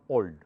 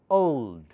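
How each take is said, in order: First: The vowel is one single, pure sound. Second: The vowel glides between two different sounds. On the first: The speaker calls it wrong. "It's not old" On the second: The speaker calls it right. "English O is made of A and O, two sounds"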